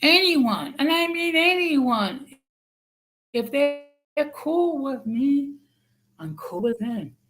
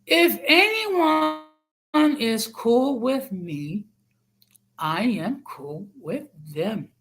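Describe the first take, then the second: First: Slow and high, each word stressed; over enunciating. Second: Slow, every word spelled out; over enunciating. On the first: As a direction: repeat it slowly, hammering each word. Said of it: "let me repeat it slowly". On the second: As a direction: say it slowly, like to a child. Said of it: "I'm gonna say it slowly". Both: Shown as a demonstration.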